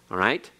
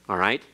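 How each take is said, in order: The two takes are said the same way.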